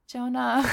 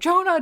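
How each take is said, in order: First: It is said quietly, meekly and completely deadpan. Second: It is called out in a frantic, panicked way. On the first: The caller shows almost no concern for the missing child. "Just the most meek Jonah" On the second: The caller is desperately worried about the missing child. "freaking out and running around going, like"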